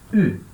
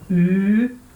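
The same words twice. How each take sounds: First: The vowel is cut short. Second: The vowel is held long. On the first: "pode ser breve" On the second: "o Y pode ser longo"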